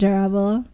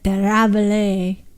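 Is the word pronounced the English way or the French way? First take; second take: English; French. First: The word is said with an English pronunciation. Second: The word is said with a French pronunciation. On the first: "instead of durable" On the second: "if I predict French French pronunciation, it's probably d- d- der durable"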